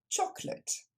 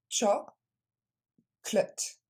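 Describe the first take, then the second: First: The word is said quickly as one unit. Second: The word is said slowly, syllable by syllable. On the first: "Et plus rapidement" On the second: "On le décompose"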